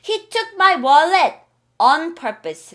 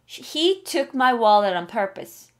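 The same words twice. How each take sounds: First: Each word is said separately with a clear T. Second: Words are linked, with the T sounding like R. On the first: The speaker calls it wrong. "라고 하면 이게 영어 못하는 사람 같다" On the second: The speaker calls it right. "오늘 앞에 붙여"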